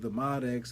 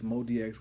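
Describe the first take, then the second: First: The name is said as two parts, Mod X. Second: The name is said as three parts, Mod D X. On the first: The speaker calls it right. "Mod X just sounds better to me" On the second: The speaker calls it wrong. "Mod D X seems like you're doing too much"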